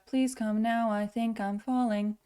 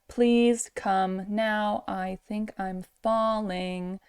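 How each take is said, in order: First: The words are run closely together in one flow. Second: The words are said separately, not run together. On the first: "that's linking them together" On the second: "instead of like"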